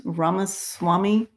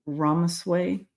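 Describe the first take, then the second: First: "Ramaswamy" said as rah-mah-SWAH-mee, still a little unsure; self-correcting to "Ramaswamy"; corrected pronunciation. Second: "Ramasway" said hesitantly as RAH-mas-way, a questioning guess; unsure pronunciation. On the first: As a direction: fix the name to "Ramaswamy", tentatively. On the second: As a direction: try the name "Ramasway" tentatively, rising like a question. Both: Real, not acted. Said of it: "how do you say his name?".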